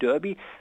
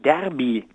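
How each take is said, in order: First: The first vowel sounds like a rounded 'ö'. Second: The first vowel sounds like an open 'ä'. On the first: The speaker calls it wrong. "das hieße doch nicht Derby" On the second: The speaker calls it right. "sondern Derby"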